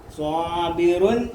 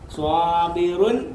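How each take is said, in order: The two takes are said the same way.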